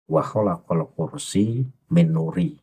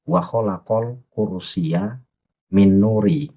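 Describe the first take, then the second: First: The word kursi ends without a final vowel. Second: The word kursi ends with an added ya. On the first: The speaker calls it wrong. "Itu bacaan yang yang tidak pas" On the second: The speaker calls it right. "Yang pas adalah"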